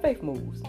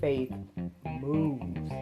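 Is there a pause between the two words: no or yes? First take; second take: no; yes. First: The two words run together without a pause. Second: A pause separates the two words. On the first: "at first I was just like faith moves" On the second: "when you put that pause between faith moves"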